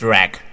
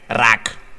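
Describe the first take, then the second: First: The name is pronounced the English way. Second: The name is pronounced the Spanish way. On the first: The speaker calls it wrong. "nicht Rack" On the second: The speaker calls it right. "Das ist doch Spanisch"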